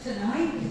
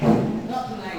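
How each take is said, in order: First: The first syllable has a reduced vowel. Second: The first syllable has a full vowel. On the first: The speaker calls it right. "You say ta" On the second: The speaker calls it wrong.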